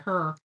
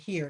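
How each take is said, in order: First: It is said with a Texas accent. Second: It is said with a standard accent.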